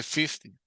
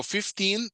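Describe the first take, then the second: First: "fifty" stressed on "fif-" and falling on "-ty"; "fifty" with the front syllable stressed. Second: Put-on "fifteen" rising on a long "-teen"; "fifteen" with a stressed, rising ending. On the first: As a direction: hit "fif-" and drop the "-ty". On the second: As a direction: lift and hold the "-teen" in "fifteen". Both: Shown as a demonstration. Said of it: "Va diferente entonación".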